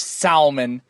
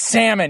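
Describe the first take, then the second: First: The L sound is pronounced in the word. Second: The L sound is silent in the word. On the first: The speaker calls it wrong. "Don't ever call that fucking fish salmon" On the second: The speaker calls it right. "there's an L there. You don't pronounce it"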